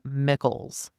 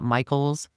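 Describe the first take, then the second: First: The first vowel sounds like 'ih'. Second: The first vowel sounds like 'eye'. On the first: The speaker calls it right. "I believe it is pronounced Mickles" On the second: The speaker calls it wrong. "so it's not Michael's"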